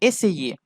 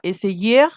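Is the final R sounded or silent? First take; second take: silent; sounded. First: The final R is silent at the end. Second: The final R is sounded at the end. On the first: The speaker calls it right. "la R ne se prononce pas" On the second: The speaker calls it wrong. "non, ce n'est pas correct"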